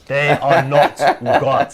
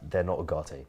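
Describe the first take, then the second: First: It is said forcefully, with more chest. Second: It is said casually, without extra force.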